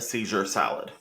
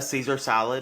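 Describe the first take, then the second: First: The first word is said like 'seizure'. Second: The first word is said like 'Caesar'. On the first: The speaker calls it wrong. "something else that I mispronounce all the time" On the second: The speaker calls it right. "I call a Caesar salad"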